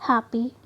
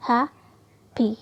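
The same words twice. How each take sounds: First: Said in the usual way. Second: happy slowly, with a clear pause between the two syllables. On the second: Shown as a demonstration. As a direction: break happy into two separate beats. (Happy के दो syllable अलग-अलग, धीरे) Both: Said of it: "अलग sound".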